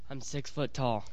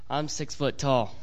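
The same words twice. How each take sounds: First: It is said plainly, without extra force. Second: It is said with extra force and emphasis.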